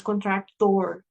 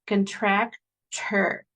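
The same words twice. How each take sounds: First: Contractor with a full Spanish O; wrong full O. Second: Very slow contractor with the last syllable reduced; schwa ending. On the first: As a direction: contractor said with the last syllable a clear O as in tor. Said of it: "no es contractor". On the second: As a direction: draw out contractor and swallow its ending. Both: Shown as a demonstration.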